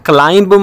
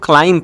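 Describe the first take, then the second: First: The word ends with an audible b sound. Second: The word ends on m with no b sound. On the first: The speaker calls it wrong. "यहाँ पे इसको क्लाइंब मत पढ़ना" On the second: The speaker calls it right. "ये जो बी है ये silent है"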